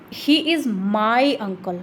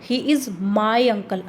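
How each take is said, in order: First: The stress is on the word my. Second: The stress is on the word my.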